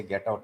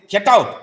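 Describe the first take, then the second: First: Quiet, lower get out; soft compassionate get out. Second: Loud, higher barked get out; angry get out. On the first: Teacher voices the kindness behind sending a disciple away, softly. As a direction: say it gently, with pity inside. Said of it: "but inside, this poor fellow". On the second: Teacher shows harshly dismissing a clinging disciple, angrily. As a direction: throw him out with mock anger. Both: Shown as a demonstration.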